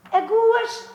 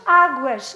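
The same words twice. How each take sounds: First: "Aguas" with the stress on the second syllable, a-GUAS, said high; wrong stress. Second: "águas" stressed on the first syllable, Á-guas, louder; right stress. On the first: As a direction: say "Aguas" as a-GUAS, raised pitch. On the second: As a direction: hit Á in "águas" firmly. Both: Shown as a demonstration. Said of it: "Não é igual".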